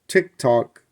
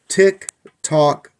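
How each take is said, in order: First: The beats come in short-long uneven pairs. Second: The beats are spaced at equal intervals. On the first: The clock is out of beat. The speaker calls it wrong. "then that's out of beat" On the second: The clock is in beat. The speaker calls it right. "that's good. It's the same interval between the tick and the tock"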